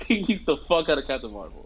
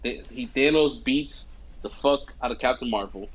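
First: Laughing through the repeat; amused retelling with a laugh. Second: Said in the usual way. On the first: Real, not acted. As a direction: crack up as you say it again. Repeats line while laughing.

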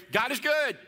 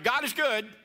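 First: High, loud call for a response; call to congregation. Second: Call to congregation. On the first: Pastor calling out to the congregation, waiting for their reply. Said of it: "Are you ready?". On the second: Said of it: "let's try it again". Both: Shown as a demonstration.

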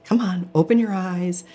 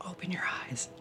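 First: Said in the usual way. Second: Barely audible whisper, much softer; whispered plea. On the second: Retold or imitated. Pleading with her sleeping body, a faint whisper. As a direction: hush it almost to nothing, begging.

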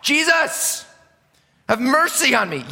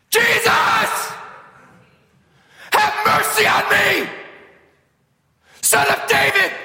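First: High pleading shout; mock shout. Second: Very high, loud desperate shriek; shrieking beggar crying for mercy, making a baby cry; full shriek. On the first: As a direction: call out like a desperate beggar. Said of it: "he begins to shout". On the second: Shown as a demonstration. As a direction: scream it at the top of your lungs. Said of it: "I did that because I want you to see, like, how obnoxious".

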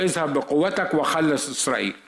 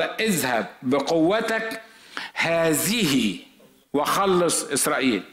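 First: Said in the usual way. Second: Slow, with a pause before and after "هذه"; stress on هذه. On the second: Shown as a demonstration. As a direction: linger on "هذه" alone, slowly. (بطء ووقفة عند كلمة "هذه") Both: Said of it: "على فكرة، كلمة هذه دي".

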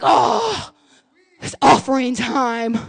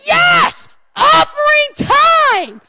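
First: Lower, slow, dragging sigh of duty; reluctant groan. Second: Much higher, louder, stretched-out cheer; cheerful giver. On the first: Churchgoer dreading the offering, slow and low. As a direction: drag it out like giving hurts. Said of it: "we're like". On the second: Churchgoer eager to give, shouting cheerfully. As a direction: shout it like the best news of the day. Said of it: "we should be like". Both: Pretend.

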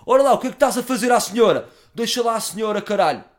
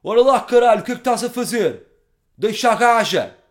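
First: Much higher, louder hard man, still roaring; tough-guy voice. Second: Much higher, much louder bellowing hard man; tough-guy voice. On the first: Corrected version, telling the drunk to leave the lady. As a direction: bark it big but say senhora. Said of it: "Não disse gaja, disse senhor". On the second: Confronting the drunk with a bottle, roaring hard man. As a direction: roar it like a street brawler. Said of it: "Salto da cadeira e faço voz". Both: Retold or imitated.

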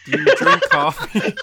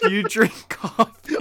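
First: Much higher and louder, laughing; silly high voice. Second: Higher, slow and louder. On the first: Asking Harper about coffee, in a much higher, louder laughing squeak. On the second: Asking Harper again about coffee, slow, higher and louder. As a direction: drag the question out in a put-on high voice. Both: Acted. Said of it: "Why do you have to say it like that".

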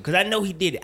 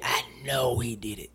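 First: Said in the usual way. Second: Unvoiced conspiratorial whisper; hushed aside to the listener. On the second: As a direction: lean in and whisper it knowingly. Whispered repeat of accusation.

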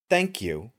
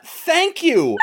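First: Quiet, breathy thanks to her rescuer; soft thank you. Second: High, disbelieving thank you; mock incredulous thanks. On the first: A narrator's reading. Woman thanks Ricky after the killing, softly. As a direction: murmur it gently. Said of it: "and she just says". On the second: Friend mocks the woman's thanks, high and incredulous. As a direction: say it like the scene makes no sense. Mocking the film's line.

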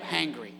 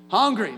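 First: Hangry said low and dry, with the a of hang; Hangry as new slang. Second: Said in the usual way. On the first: Shown as a demonstration. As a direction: drop the word Hangry as a joke. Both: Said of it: "we even got a word now".

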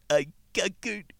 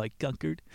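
First: Slow, drawn out and higher; drawn-out seductive. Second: Said in the usual way. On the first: Acted. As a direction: stretch it out slowly, higher. Casanova's line against Caesar's.

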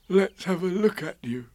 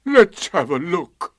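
First: Higher, kindly bear voice; Pooh. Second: Slow, high, loud donkey voice; mournful, heavy drawl; Eeyore. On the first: Pooh offering to inspect Eeyore, concerned. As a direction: look your friend over, lightly. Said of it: "said Pooh". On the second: Eeyore checking for his tail, gloomy. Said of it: "said Eeyore". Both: A narrator's reading.

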